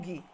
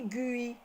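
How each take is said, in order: First: The u is silent after the g. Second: The u is sounded after the g. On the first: The speaker calls it right. "Je dis ge ou gui" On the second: The speaker calls it wrong. "Je ne dis pas gue, ni gui"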